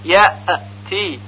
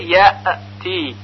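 First: The hamza is released with an echoing bounce. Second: The same.

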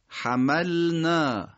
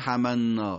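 First: The l and n sounds stay clearly separate. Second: The l and n sounds blend into each other. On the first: The speaker calls it right. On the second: The speaker calls it wrong.

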